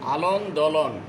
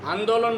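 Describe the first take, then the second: First: An extra 'l' syllable is added near the start. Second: The word is said without an extra syllable. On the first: The speaker calls it wrong. "মানে একটু বাড়াই বলতো" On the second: The speaker calls it right. "আন্দোলন বলতে হবে"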